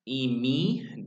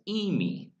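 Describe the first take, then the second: First: The accent is on the last syllable. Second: The accent is on the first syllable. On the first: It means to be. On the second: It means to go.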